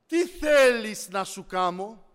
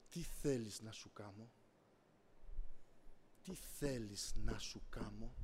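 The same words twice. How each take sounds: First: Loud, slow, stretched-out question; emphatic divine question. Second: Very low, soft, measured question; the Lord's voice. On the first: The Lord asking what to do for him, loud and deliberate. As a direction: proclaim it slowly to the whole room. Repeats the Lord's question forcefully. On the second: The Lord asking the preacher what he wants, low and solemn. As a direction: ask it deep and quietly, drawing it out. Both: Retold or imitated.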